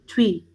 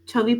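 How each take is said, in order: First: The chh glides straight into the vowel. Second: A full vowel separates the chh and v sounds. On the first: The speaker calls it right. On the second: The speaker calls it wrong.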